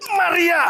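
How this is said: It is said as a strong exclamation.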